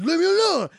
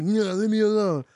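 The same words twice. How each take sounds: First: Very high, loud slurred mock protest; drunken yell. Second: Slurred imitation of a drunk's protest; mumbling drunk. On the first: Drunk about to punch his helper, slurred imitated yell. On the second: Drunk being lifted off the toilet, slurred mock protest. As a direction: mumble it like a half-asleep drunk, louder than chat.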